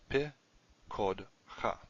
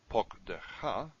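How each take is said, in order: First: The short o vowel is in the second syllable. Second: The short o vowel is in the first syllable. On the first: This is an alternative form. "Your kamatatif is moved over one" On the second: This is the usual form. "the way you would pronounce the normal one"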